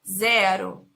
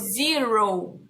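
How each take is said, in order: First: It is pronounced the Portuguese way. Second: It is pronounced the English way. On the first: "Em português, nós falamos zero" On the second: "Em inglês, nós falamos zero"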